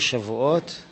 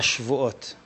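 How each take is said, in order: First: The word is pronounced shavuot, with a full first vowel. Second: The word is pronounced shevuot, with a reduced first vowel. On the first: It names the holiday of weeks. "אל תקרי שבועות" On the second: It means oaths, the plural of oath. "לשון רבים של שבועה"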